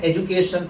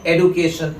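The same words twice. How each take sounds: First: एजुकेशन with 'joo' in the middle; Indian pronunciation. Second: एडुकेशन with 'doo' in the middle; American pronunciation as taught. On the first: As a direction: put a 'j' sound in एजुकेशन. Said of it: "हमारा pronunciation इस word का है". (एजुकेशन में 'जू') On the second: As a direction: put a hard 'd' in एडुकेशन. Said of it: "American pronunciation है". (एडुकेशन में 'डू') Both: Shown as a demonstration.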